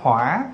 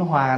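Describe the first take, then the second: First: The syllable has a dipping tone. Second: The syllable has a low falling tone. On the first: "là dấu hỏi" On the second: "chữ Hòa nè"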